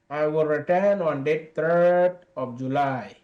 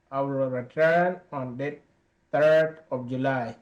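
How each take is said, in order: Both takes have the same delivery.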